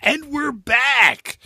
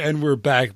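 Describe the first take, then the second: First: Big slow booming radio announcer; radio host voice. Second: Said in the usual way. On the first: Pretend. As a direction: belt it like a DJ coming back from a break. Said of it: "like a radio show host". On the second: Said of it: "But I wanted to say".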